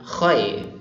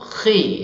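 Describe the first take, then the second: First: The vowel sounds thick, drifting toward o. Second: The vowel sounds thin and clear, like i. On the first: The speaker calls it wrong. "bukan khoy" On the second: The speaker calls it right. "tapi ghi atau khi"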